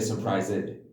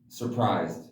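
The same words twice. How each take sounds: First: The word ends in an extra 'id' syllable. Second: The word ends in a plain d sound. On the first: The speaker calls it wrong. "They'll say surprised" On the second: The speaker calls it right. "another one example is surprised"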